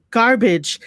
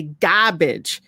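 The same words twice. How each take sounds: First: "garbage" with its R clearly sounded; standard pronunciation. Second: "garbage" drawn out without its R, "gah-bage"; New York pronunciation. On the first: Shown as a demonstration. Host correcting fellow New Yorkers, standard pronunciation. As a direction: say "garbage" slowly, keeping the R. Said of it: "that shit fucking annoys". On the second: Retold or imitated. Host mimicking other New Yorkers, New York pronunciation. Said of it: "when I hear other New Yorkers say".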